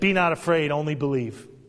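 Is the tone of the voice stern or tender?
stern. It is said in a firm, stern tone. The speaker calls it wrong. "I don't think he said it that way"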